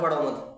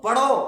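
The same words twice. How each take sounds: First: Said in the usual way. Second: पढ़ो called out loud and high; emphatic command. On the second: Real, not acted. Teacher urging students to study, emphatic command. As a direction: push पढ़ो up as a loud, rising order.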